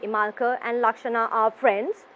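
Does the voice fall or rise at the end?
rise. The voice rises at the end. The speaker calls it wrong. "You don't say"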